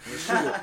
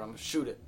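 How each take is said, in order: First: Repeated louder threat. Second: Said in the usual way. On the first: Retold or imitated. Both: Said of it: "Mom was like".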